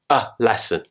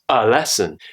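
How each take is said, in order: First: The word 'a' has a full, careful vowel. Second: The word 'a' is reduced to a weak schwa. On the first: "It's on the A" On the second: "when we say it naturally, it becomes"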